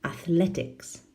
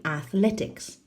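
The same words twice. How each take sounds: First: AthLEtics said with a falling tune; stress on second syllable. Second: AthLEtics with a rising tune, the final s stretched out; stress on second syllable. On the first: Teacher repeats the model word for students, stress on second syllable. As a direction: land "Athletics" firmly on LE and let it fall. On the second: Teacher modelling the word for the class, stress on second syllable. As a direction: lift "Athletics" on LE and let it rise to the end. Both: Shown as a demonstration. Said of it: "Second syllable".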